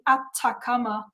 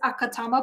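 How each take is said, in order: First: The word begins with the syllables ata. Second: The word begins with the syllables aka. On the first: The speaker calls it right. "but it is the Atacama Cosmology Telescope" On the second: The speaker calls it wrong. "my brain reads it as Akatama"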